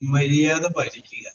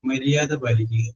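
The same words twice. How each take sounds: First: It is said in a harsh, stern tone. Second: It is said in a warm, affectionate tone. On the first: "ഞാൻ ഈ പറഞ്ഞ പോലെ അല്ല" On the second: "സ്നേഹത്തോടു കൂടി പറയുന്നു"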